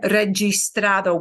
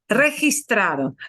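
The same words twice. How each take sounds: First: The g sounds like an English j. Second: The g sounds like a breathy h. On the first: The speaker calls it wrong. "We won't have registrado" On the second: The speaker calls it right. "That G I will be a he, he, he, he"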